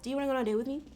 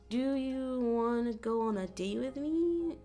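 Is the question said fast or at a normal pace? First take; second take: fast; normal. First: The question is spoken quickly, words rushed together. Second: The question is spoken at a normal pace.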